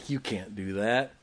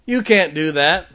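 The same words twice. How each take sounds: First: Low, softly muttered mock objection; imitated scoffer. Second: Loud, slow mock objection; imitated scoffer. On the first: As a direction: quote the doubters under your breath. Scorners quoted, first low. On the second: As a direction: throw the doubters' words out slowly and forcefully. Scorners quoted, repeated forcefully.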